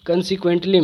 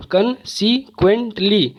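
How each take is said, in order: First: Said in the usual way. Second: "consequently" slowly in four beats, con, se, quent, ly; pauses between the syllables of "consequently". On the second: Shown as a demonstration. ("consequently" को चार टुकड़ों में धीरे-धीरे) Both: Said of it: "चार syllable है".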